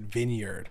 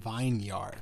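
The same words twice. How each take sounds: First: The first part sounds like 'vin', short and reduced. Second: The first part sounds like 'vine', full and separate. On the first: The speaker calls it wrong. "I hear people pronouncing it vineyard" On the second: The speaker calls it right. "but it's fucking vineyard"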